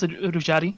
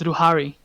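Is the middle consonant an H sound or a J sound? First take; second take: J sound; H sound. First: The middle consonant is a J sound. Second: The middle consonant is an H sound. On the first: This is how the written name looks. The speaker calls it wrong. "The name says, I guess Rujari or something" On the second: This is how the name is really said. The speaker calls it right. "but it's Ruhari"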